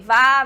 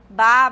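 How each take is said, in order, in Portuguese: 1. Começa com som de V. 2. Começa com som de B. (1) "em português, nós falamos o quê?" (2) "Em espanhol, ficará como? Como ela tem o som de B"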